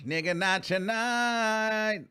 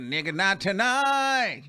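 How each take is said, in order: First: Even slower, drawn-out sassy no; sassy refusal again. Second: Slow, drawn-out sassy no; sassy refusal. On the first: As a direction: stretch every word, pure attitude. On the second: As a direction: lay it down slowly with attitude. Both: Retold or imitated. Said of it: "She said".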